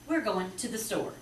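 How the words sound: The words run together in one smooth phrase. The speaker calls it right. "To the is kind of tied together"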